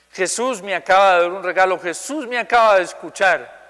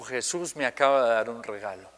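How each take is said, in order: First: Higher, louder joyful retelling; retold joy. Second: Low, soft, lightly moved retelling; retold tearful words. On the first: Boy telling the preacher after prayer, joyful imitation. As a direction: exclaim it as the overjoyed boy would. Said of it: "Pero una alegría". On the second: Boy telling the preacher after prayer, mildly tearful imitation. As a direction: quietly imitate someone speaking through tears.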